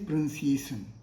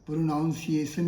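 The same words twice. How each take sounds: First: The second syllable sounds like 'nun'. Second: The second syllable sounds like 'noun'. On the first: The speaker calls it right. "Correct is pronunciation" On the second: The speaker calls it wrong. "Pronunciation is incorrect"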